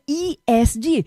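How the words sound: The letters are named with English letter sounds. This follows the original English acronym. "como é em inglês, né, Environmental, Social and Governance, seria E S G"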